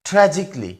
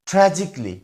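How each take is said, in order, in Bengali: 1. শেষের অংশটি ছোট 'kly'-তে নামিয়ে আনা হয়। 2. শেষের অংশটি ছোট 'kly'-তে নামিয়ে আনা হয়।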